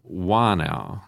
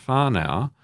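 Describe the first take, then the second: First: "Wānau" with no H or F sound; silent H. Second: "whānau" with the Wh sounded as F. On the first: Priest showing the up-river pronunciation, plain W in "Wānau". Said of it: "it is pronounced up the river". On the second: Priest giving an example word, F sound in "whānau". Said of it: "is spelt with an H". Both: Shown as a demonstration.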